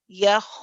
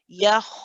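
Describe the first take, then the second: The two takes are said the same way.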